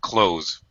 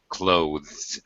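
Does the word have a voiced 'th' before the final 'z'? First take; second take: no; yes. First: No 'th', only a plain final 'z'. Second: A voiced 'th' comes before the final 'z'. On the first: "native speakers just pronounce it close with a Z sound" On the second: "being very careful to pronounce the voiced T H sound"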